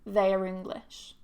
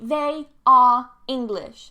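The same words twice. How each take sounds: First: The word 'are' is reduced to a weak schwa. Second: The word 'are' is said fully and clearly. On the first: The speaker calls it right. "It's reduced to a schwa" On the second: The speaker calls it wrong. "So in the strong form, it would be"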